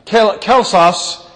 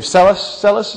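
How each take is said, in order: First: The name is said with its Greek pronunciation. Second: The name is said with an English pronunciation. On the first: "is the way they pronounce it in Greek" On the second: "I'm not sure how in English. I mean, Selis, is that how it is?"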